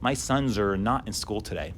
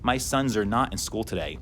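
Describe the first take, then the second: The two takes are said the same way.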